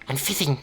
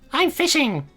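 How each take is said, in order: First: It is said in the Geen character voice. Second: It is said in a meowing, cat-like voice.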